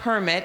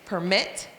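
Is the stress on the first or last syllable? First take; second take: first; last. First: The stress is on the first syllable. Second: The stress is on the last syllable.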